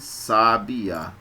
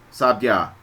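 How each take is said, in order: First: The last two vowels stay as separate syllables. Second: The last two vowels merge into one syllable. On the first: The speaker calls it right. "fala-se sabiá" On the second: The speaker calls it wrong. "Ninguém fala sabiá"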